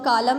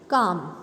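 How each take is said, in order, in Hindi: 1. इस शब्द में L की आवाज़ आती है। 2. इस शब्द में L की आवाज़ नहीं आती है। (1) "इसको हम कालम नहीं बोलेंगे" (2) "काम में भी एल की आवाज़ नहीं आ रही है"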